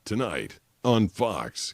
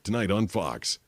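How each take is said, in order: First: It is said slowly and drawn out. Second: It is said at a moderate, measured pace. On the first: It runs over the allotted time slot. The speaker calls it wrong. "You can't be like, ... because that's like two point three" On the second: It fits the allotted time slot. The speaker calls it right. "So you have to be like, ... one point eight seconds"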